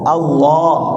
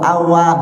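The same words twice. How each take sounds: First: It is said thick, with a deep o-colouring. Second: It is said thin, without the deep o-colouring. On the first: The speaker calls it right. "harus ke o" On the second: The speaker calls it wrong. "tidak dibaca Allah atau Allah, nggak bisa"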